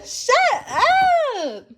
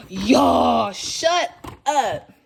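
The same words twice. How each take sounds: First: Squealing. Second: Real disbelief bursting out; squealing excitement at the gift; shocked thrill. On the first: Repeat of shut up, higher. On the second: Thrilled at gifts in bag. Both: Real, not acted.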